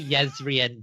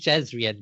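First: The name begins with a Y sound. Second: The name begins with a J sound. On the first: This is the later, Vorin-influenced pronunciation. The speaker calls it wrong. "say Yezrian" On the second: This is the older, original pronunciation. The speaker calls it right. "technically it should be Jezrian"

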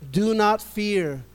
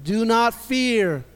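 First: It is said in a plain, ordinary way. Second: It is said forcefully, with conviction.

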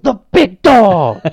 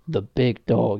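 First: It is said loudly with lots of excitement. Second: It is said in a low-key, subdued way. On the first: The commentator's usual enthusiastic hype. "He didn't go" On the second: The commentator held back his excitement. "he only went"

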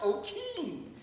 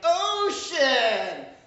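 First: The middle consonant is a hard k sound. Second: The middle consonant is an sh sound. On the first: The speaker calls it wrong. "I mispronounced ocean" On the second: The speaker calls it right. "They're like, ocean!"

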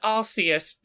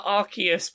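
First: The first syllable sounds like 'arse'. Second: The first syllable does not sound like 'arse'. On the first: This is the official pronunciation. "It's officially pronounced Arceus" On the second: This is the pronunciation the speaker prefers. "but I prefer Arceus because I don't like the god of Pokemon has the word arse in it"

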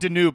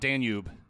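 First: Said as 'Danoob', with no y sound. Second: Said as 'Danyoob', with a y sound. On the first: "Why are you saying Danube" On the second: "and not Danube? Like the river"

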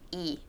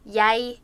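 First: The word sounds like English 'I', a diphthong. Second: The word starts with a y-glide, like 'yay'. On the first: This is a third dialect's form of the word. "and Djupvik says I" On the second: This is a second dialect's form of the word. "Jesper would say jeg"

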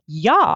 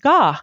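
First: The word begins with a y sound. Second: The word begins with a hard g sound. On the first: "men de sier ja" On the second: "de ikke ga"

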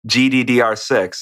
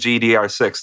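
First: The letter D is said twice. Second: The letter D is said only once. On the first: "it's too long to say. It's too many E sounds in a row" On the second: "if you cut it out once, you just don't notice"

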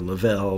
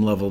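First: The last syllable rhymes with swell. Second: The last syllable does not rhyme with swell. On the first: "like that swell" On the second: "like Jim Lovell the astronaut"

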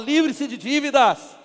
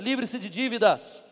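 First: It is said strongly, with conviction. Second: It is said weakly, without conviction.

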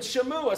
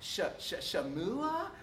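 First: The name is said firmly, like a statement. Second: The name is said hesitantly, like a question. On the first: The reader seems to know the pronunciation. The speaker calls it right. "if you just go, yeah, dude, Reuben, Shamua" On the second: The reader does not know the pronunciation. The speaker calls it wrong. "don't have it, like, Shamua? People don't think you know what you're doing"

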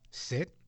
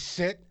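First: The word is said at normal volume. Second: The word is said loudly. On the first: "if I say to my dog" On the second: "or I say in a louder voice"

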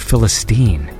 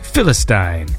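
First: The word is said the North American way. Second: The word is said the British way. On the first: "in North America, they say" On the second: "I've heard it said on British TV"

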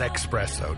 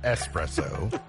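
First: The word begins with an 'ex' sound. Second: The word begins with an 'ess' sound. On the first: The speaker calls it wrong. "Not espresso" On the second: The speaker calls it right. "It's espresso"

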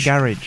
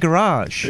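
First: It is said with a British pronunciation. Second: It is said with an American pronunciation. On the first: "We say garage" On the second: "Americans say garage"

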